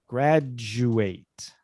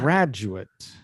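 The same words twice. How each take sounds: First: The last syllable sounds like 'eight'. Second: The last syllable sounds like 'ut'. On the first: It is the verb, to finish studies. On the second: It is the noun, a person who finished studies.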